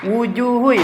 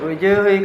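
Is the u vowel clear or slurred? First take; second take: clear; slurred. First: The u vowel is clearly rounded by moving lips. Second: The u vowel is slurred with barely moving lips. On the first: The speaker calls it right. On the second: The speaker calls it wrong.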